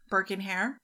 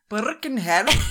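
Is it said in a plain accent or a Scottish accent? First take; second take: plain; Scottish. First: It is said in the speaker's plain accent. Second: It is said in a Scottish accent with a rolled R.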